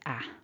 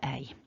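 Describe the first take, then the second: First: The vowel is a single short vowel. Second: The vowel is a gliding double vowel. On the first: The speaker calls it wrong. "sometimes people will go with a short vowel" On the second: The speaker calls it right. "We're aiming for"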